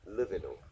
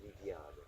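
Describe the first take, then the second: First: "Livino" said the American way; "Livino" with flattened American vowels; Americanized pronunciation. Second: "Liviano" in soft Italian syllables; "Liviano" the original Italian way; original Italian pronunciation. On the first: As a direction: say "Livino" as LIV-ih-no. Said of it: "Americans pronounce it Livino". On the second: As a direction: say "Liviano" as lee-vee-AH-no. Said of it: "the original pronunciation is Italian". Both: Shown as a demonstration.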